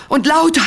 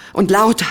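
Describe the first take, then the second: First: Loud and much higher; much louder. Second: Noticeably louder, a bit higher. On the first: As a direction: go to the peak, loud and high. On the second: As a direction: push it up a notch. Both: Acted.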